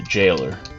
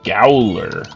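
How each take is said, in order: First: The word begins with a J sound. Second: The word begins with a hard G sound. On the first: It is the accepted pronunciation. The speaker calls it right. "it's supposed to be the jailer" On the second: It is read naively from the spelling. The speaker calls it wrong. "when I was a kid, I saw this and I would say"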